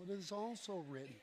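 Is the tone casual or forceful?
casual. It sounds casual and laid-back.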